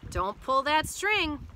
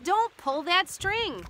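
First: Slow, slightly raised warning; measured warning. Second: High, drawn-out urgent warning; urgent cry. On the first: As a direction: give a careful instruction, slowly. Goat warns before leaving. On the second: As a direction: cry it slowly to stop them. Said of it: "cries Frog". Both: A narrator's reading.

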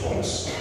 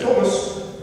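First: Said in the usual way. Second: High-pitched British mother-in-law; British accent. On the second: Retold or imitated. Mother-in-law addressing the preacher, imitated British accent. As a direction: call the name in a high English accent. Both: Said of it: "with her British accent".

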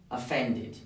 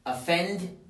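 First: "offended" ending in a full "id"; "offended" as o-fend-id, falling at the end; added -ed syllable. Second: Said in the usual way. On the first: Shown as a demonstration. Teacher showing the extra syllable, "offended" said o-fend-id. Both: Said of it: "tenemos que agregar una sílaba adicional".

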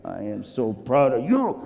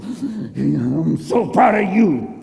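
First: Tender, fatherly pride; proud master. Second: Drawn-out, choked-up pride, played for laughs; mock overcome with emotion; emotional. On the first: Acted. Master quietly praises his men. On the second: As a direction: gush it slowly, as if tearing up. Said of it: "Excuse me, I'm emotional".

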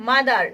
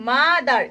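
First: Said in the usual way. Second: mother in two parts, মা then দার; split into syllables. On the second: Shown as a demonstration. (Mother শব্দটি মা আর দার দুই অংশে ভাগ করে বলা) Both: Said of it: "দুই অংশে বিভক্ত হয়ে উচ্চারিত হচ্ছে".

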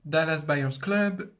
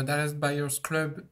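First: Said in the usual way. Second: Slow, careful English accent on the title. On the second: Shown as a demonstration. Guest repeats the film title in a self-mocking English accent. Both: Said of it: "avec mon magnifique accent".

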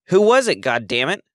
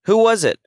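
First: Much higher, loud scream fading on the curse. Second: Much higher, loud desperate scream. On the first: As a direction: shriek it, then spit the curse. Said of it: "she screamed again". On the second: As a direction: hurl the question at full volume. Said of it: "she screamed". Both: A narrator's reading.

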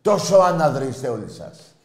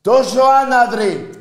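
First: Loud, high start that falls away; heated scolding of the whole crowd; angry accusation. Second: Very high, drawn-out furious scream; all-out outraged bellow; screamed insult. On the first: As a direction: hurl the insult, then let it drop. Insults listeners, then repeats it louder. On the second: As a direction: stretch it out at the top of your voice. Repeats the insult at full scream. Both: Real, not acted.

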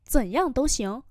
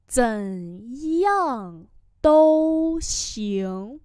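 First: Said in the usual way. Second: Very slow, every tone drawn out; slow teacher's repeat; slow model pronunciation. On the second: Shown as a demonstration. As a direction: spell it out syllable by syllable. Teacher repeats phrase slowly.

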